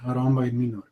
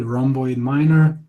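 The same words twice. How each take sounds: First: Minor is said with Latin vowel sounds. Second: Minor is said with English vowel sounds. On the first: "in Latin, uh, proper way to say" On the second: "that's the way uh, Canadians or Americans say rhomboid minor"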